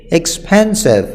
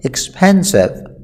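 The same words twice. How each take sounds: First: Said in the usual way. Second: Expensive, said very slowly and drawn out for learners; slow model word. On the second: Shown as a demonstration. Teacher to students, repeating the word slowly. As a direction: spell out expensive slowly so the class can copy.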